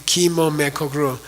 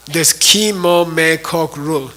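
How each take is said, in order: First: Said in the usual way. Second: Slow, syllable by syllable: Ki Mo Me Kok Rul; careful pronunciation. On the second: Shown as a demonstration. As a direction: spell out Ki Mo Me Kok Rul slowly, each syllable apart. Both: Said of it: "Okay, Ki Mo Me Kok Rul".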